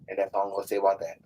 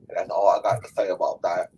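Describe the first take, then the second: First: It is said in his normal voice. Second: It is said in a Forrest Gump impression.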